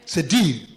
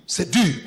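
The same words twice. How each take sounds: The two takes are said the same way.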